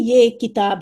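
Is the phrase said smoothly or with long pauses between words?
smoothly. The words flow together without pauses. The speaker calls it right. "जैसे आप उर्दू में कहती हैं"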